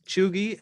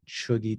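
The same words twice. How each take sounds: First: The word has its usual, common vowel. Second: The word has a different, less common vowel. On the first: "as it's typically pronounced" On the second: "I guess I've heard Cheugy too, or your vowel may may vary"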